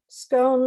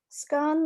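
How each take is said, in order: First: The vowel rhymes with stone. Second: The vowel rhymes with done. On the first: "like stone" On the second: "like dun"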